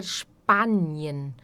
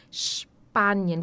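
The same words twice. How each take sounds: First: "Spanien" slowly, with "sh" and a wide open A; "Spanien", never a closed A. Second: "Spanien" starting "Shpanien", S said like the Portuguese X; sh sound. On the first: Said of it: "Nunca vai ser A". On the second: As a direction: say the S in "Spanien" as "sh", then P. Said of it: "som de X". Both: Shown as a demonstration.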